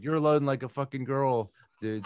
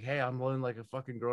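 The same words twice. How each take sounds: First: Higher, louder imitation of a yelling supervisor; mock yell as the boss berating you; retold supervisor yell. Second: Higher, quick mocking echo. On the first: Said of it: "yelling back to me". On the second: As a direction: parrot the boss's insult back, no yelling. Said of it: "And I went like this".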